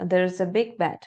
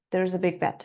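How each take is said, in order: First: The words run together smoothly and fluently. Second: The same.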